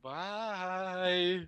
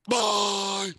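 First: It is said at normal, soft volume. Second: It is said very loudly, almost screamed.

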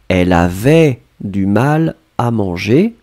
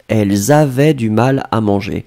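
First: There is no z-sound before the second word. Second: A z-sound links into the second word. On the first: One woman had trouble eating. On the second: Several women had trouble eating. "Avec la liaison"

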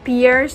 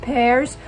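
First: The vowel sounds like the word 'ear'. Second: The vowel sounds like the word 'air'. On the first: The speaker calls it wrong. "I have no idea why I was saying peers" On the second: The speaker calls it right. "not pears"

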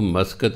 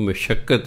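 First: It is said maskat, with s and short k. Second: It is said mashakkat, with sh and long k. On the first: The speaker calls it wrong. "ਉਹ ਮਸਕਤ ਨਹੀਂ ਹੈ" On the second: The speaker calls it right. "ਉਹ ਮਸ਼ੱਕਤ ਹੈ"

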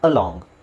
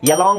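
First: The first vowel is a short, weak 'uh'. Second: The first vowel is a clear 'e' sound. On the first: The speaker calls it right. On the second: The speaker calls it wrong.

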